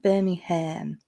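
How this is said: The last syllable is said as 'ham'. This is how the speaker's group says it. The speaker calls it right. "we call it Birmingham, like with a ham"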